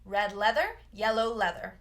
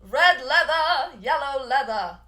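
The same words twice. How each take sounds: First: The final R sound in leather is fully pronounced. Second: The final R sound in leather is dropped. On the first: It sounds American. "in American English, we pronounce those R's fully" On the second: It sounds more British. "if they want to sound more British, they might drop that E R sound"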